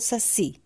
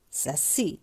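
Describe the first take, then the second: First: The stress is on the first syllable. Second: The stress is on the last syllable. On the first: The speaker calls it wrong. "Eu falo saci ou falo saci?" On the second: The speaker calls it right. "a sílaba tônica está no si"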